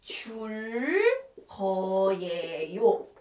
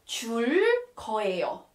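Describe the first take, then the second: First: "줄 거예요" slowly, every sound stretched; teacher sounding out "줄 거예요" piece by piece; drawn-out demonstration. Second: Said in the usual way. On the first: Shown as a demonstration. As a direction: stretch out "줄", pause, then a long low "거예요". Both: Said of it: "So we have to put".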